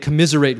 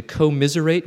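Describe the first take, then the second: First: Said in the usual way. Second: "commiserate" with a long "co-" at the front; broken-up word. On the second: Shown as a demonstration. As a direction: split "commiserate" as co-miserate, to bring out misery. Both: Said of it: "hear that word that way".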